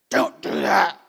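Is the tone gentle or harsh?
harsh. It is said in a harsh, stern tone. The request is made with irritation. "or not so nicely"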